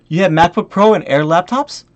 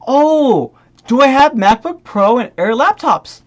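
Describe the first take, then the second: First: Said in the usual way. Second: Drawn-out sarcastic 'oh', then incredulous echo; exaggerated fake wondering; mocking echo. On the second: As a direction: parrot the question with scorn. Mockingly echoes the buyer's question.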